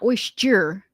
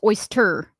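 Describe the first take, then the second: First: The word is said to sound like 'moisture'. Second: The word is said without the 'moisture' sound. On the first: The speaker calls it wrong. "saying oyster like moisture? ... It's not oyster" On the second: The speaker calls it right. "It's oyster"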